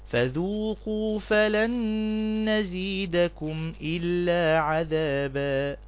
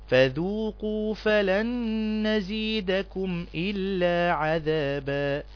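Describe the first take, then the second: No difference in how they are said.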